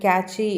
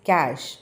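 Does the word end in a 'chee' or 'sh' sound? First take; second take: chee; sh. First: The word ends with a 'chee' sound. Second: The word ends with an 'sh' sound. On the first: The speaker calls it wrong. "சில பேர் கேட்சி அப்படிலாம் சொல்லுவாங்க" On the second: The speaker calls it right. "Actually it is கேஷ்"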